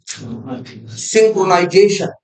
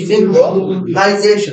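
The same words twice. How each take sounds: First: synchronisation drawn out slowly, syllable by syllable; teacher dictating the new word slowly; slow spelled-out term. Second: synchronisation said again slowly, falling at the end; teacher repeating the term for students; slower repeated term. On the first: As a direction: stretch synchronisation out slowly for the class. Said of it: "इसे बोलते हैं क्या?". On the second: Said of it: "इसे क्या बोलते हैं?". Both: Shown as a demonstration.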